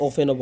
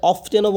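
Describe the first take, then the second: First: The variant ওপেনও with f straight into e; alternative pronunciation. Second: The variant অফটেনও with "t" after f; alternative pronunciation. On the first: Teacher allows either form, pronunciation without t. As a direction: say ওপেনও as "ofen-o", silent t. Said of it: "ওপেনও বলা যায়". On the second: Teacher allows either form, pronunciation with t. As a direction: say অফটেনও with the t sounded. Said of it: "অফটেনও বলা যায়". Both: Shown as a demonstration.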